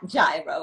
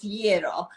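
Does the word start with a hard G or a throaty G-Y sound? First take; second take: hard G; throaty G-Y. First: It starts with a plain hard G sound. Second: It starts with a throaty G-Y sound. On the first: The speaker calls it wrong. "it's not gyro" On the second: The speaker calls it right. "the G is kind of like a G and a Y, but in the back of the throat"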